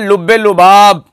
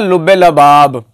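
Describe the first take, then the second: First: The second word has a 'u' vowel after 'l'. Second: The second word has an 'a' vowel after 'l'. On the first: The speaker calls it right. "बड़ा मशहूर इस जमाना एक लफ्ज बोला जाता है" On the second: The speaker calls it wrong. "हजरत उसको पढ़ते हैं"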